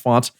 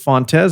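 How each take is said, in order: First: The name is said with one syllable. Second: The name is said with two syllables. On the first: The speaker calls it right. "it is pronounced Fonts" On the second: The speaker calls it wrong. "he'll occasionally pronounce it Fontes"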